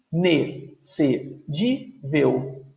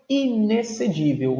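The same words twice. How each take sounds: First: "Inexcedível" in five slow, separate syllables. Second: Said in the usual way. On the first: Shown as a demonstration. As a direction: break "Inexcedível" into i-ne-ce-dí-vel. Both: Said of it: "Cinco sílabas".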